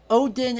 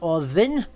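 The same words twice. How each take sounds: First: The middle consonant is a plain d sound. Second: The middle consonant is a voiced th sound. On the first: This is the English form of the name. The speaker calls it wrong. "Odin is an anglicization" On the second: This is the original Old Norse form of the name. The speaker calls it right. "it should be an Ev, which is a voiced T H sound"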